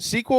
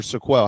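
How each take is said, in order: First: "Sequel" as SEE-kwul, stress up front; first-syllable pronunciation. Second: "Sequel" as suh-KWELL, stress at the end; second-syllable pronunciation. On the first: Host checking a player's name, "Sequel" said SEE-kwul. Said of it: "is it Sequel or Sequel? How do we say his name?". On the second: Host offering the other reading of a name, "Sequel" said suh-KWELL. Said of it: "How do we say his name?". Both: Shown as a demonstration.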